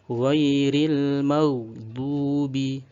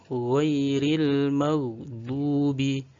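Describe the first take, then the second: The two takes are said the same way.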